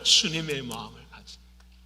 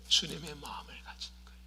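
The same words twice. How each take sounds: First: Said in the usual way. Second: Hushed whisper on 주님의 마음을 가진 거예요; hushed answer. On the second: Acted. Pastor answering his own question, whispered. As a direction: drop to a whisper on 주님의, then let the rest trail off. Repeated answer, second take.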